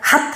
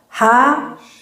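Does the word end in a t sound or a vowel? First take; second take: t sound; vowel. First: The word ends with a clipped t sound. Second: The word ends on an open vowel. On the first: The speaker calls it wrong. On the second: The speaker calls it right.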